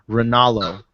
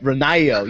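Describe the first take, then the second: First: The double L is said as an L sound. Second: The double L is said as a Y sound. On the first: This is how the man says his own name. The speaker calls it wrong. "he calls himself Moro Ronaldo" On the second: This is how Spanish speakers would say the name. The speaker calls it right. "you got to put the ya"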